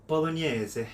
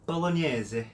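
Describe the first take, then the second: First: It is said with an Italian accent. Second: It is said with an Italian accent.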